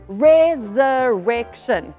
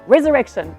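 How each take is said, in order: First: The word is said at a normal, slow pace. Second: The word is said quickly.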